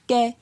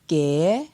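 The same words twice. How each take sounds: First: The syllable is said on a mid tone. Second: The syllable is said on a rising tone. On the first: "Pour un ton moyen" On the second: "Pour un ton montant"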